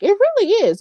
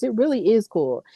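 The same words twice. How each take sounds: First: Sudden high emphatic lift on really; excited agreement. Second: Said in the usual way. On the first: Real, not acted. Agreeing with a viewer that Carlito is back, excited. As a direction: chime in much higher, thrilled.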